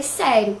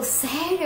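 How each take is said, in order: First: "Sério." said at normal pitch with a falling tune; firm confirmation. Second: "Sério?" asked high with a rising tune; surprised question. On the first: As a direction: answer "Sério." as a flat, final confirmation. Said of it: "Eu falei". ("Sério." afirmado com entonação descendente e firme) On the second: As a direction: toss back "Sério?" as a startled, rising question. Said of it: "Minha mãe falou". ("Sério?" perguntado bem mais agudo, subindo, em surpresa) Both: Retold or imitated.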